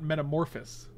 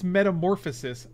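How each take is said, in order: First: The word ends with a shortened 'phous' syllable. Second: The word ends with the full 'phosis' syllables. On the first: The speaker calls it wrong. "You keep removing syllables" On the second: The speaker calls it right. "It's metamorphosis"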